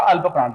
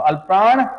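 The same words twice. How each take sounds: First: Said in the usual way. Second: अल्प प्राण called out louder, प्राण rising; अल्प प्राण पर ज़ोर, ऊँची आवाज़ में; stressed teaching term. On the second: Shown as a demonstration. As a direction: drill the words अल्प प्राण loudly with a lift on प्राण. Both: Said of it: "देखो अल्प प्राण".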